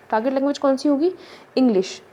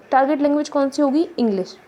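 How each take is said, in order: Both takes have the same delivery.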